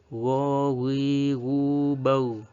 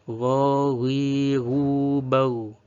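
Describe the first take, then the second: No difference in how they are said.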